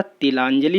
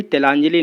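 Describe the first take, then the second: First: तिलांजलि opening on 'ti'; corrected form. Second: तेलांजलि opening on 'te'; wrong form. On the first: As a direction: say तिलांजलि with an i in the first syllable. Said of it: "होता है". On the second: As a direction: say तेलांजलि with an e in the first syllable. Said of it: "नहीं होता". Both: Shown as a demonstration.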